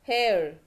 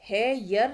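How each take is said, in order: First: The vowel glides smoothly with no y sound. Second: A clear y sound splits the word in two. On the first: The speaker calls it right. "य sound नहीं आएगा, ए ई आएगा" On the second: The speaker calls it wrong. "है यर नहीं बोलते हैं"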